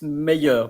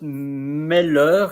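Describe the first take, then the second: First: The middle sound is a Y glide. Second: The middle sound is a clear L. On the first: The speaker calls it right. "it's meilleur because I L L is like it's like a bit like in Spanish" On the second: The speaker calls it wrong. "it's not meilleur"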